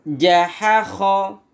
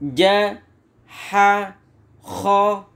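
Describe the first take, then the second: First: The syllables are joined without any pauses. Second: Each syllable is said separately with pauses. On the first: "tidak perlu dieja, langsung dibaca" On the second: "dibaca pisah-pisah"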